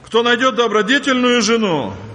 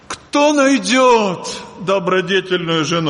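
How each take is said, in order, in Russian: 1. Читается обычной повествовательной интонацией. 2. Читается с вопросительной интонацией.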